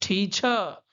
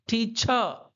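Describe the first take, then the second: Both takes have the same delivery.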